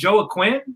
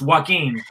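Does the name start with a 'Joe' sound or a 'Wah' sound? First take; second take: Joe; Wah. First: The name begins with 'Joe' and a 'kw' sound. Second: The name begins with 'Wah' and a 'k' sound. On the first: The speaker calls it wrong. "isn't your name Joe Quinn?" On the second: The speaker calls it right. "no, it's Joaquin"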